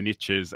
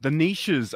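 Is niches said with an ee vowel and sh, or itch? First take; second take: itch; ee-sh. First: It rhymes with riches, said like nitches. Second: It rhymes with Reese's, said like neeshes. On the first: This is the common American way. The speaker calls it wrong. "I often hear people say that the riches are in the niches" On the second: This follows the word's French origin. The speaker calls it right. "it's a French word"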